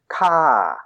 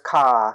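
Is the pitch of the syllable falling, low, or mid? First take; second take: falling; mid. First: The pitch falls from high to low. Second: The pitch stays level in the middle range. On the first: "That's falling, ka. So that's all the way from high to way down low" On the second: "so there's ka stick"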